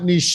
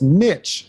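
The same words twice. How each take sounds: First: The word does not rhyme with riches. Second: The word rhymes with riches. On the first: The speaker calls it wrong. "It's not niche" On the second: The speaker calls it right. "You said it correctly. It's niche"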